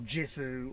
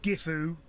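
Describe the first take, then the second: First: The name begins with a j sound. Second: The name begins with a hard g sound. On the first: "or Jifu" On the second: "It's not Gifu"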